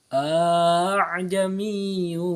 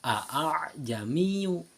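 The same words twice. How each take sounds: First: The second glottal stop is softened toward a vowel. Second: The second glottal stop is said fully and sharply. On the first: "hamzah yang kedua itu seolah-olah dibaca alif" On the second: "asalnya itu a'jamiyyu"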